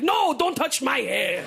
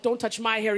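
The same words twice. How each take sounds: First: Put-on slow Italian-accented insistence; mock the Italian ex saying it slowly. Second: Said in the usual way. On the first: Italian ex in bed echoing her, slow Italian accent. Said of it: "He's like". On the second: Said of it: "I'm like".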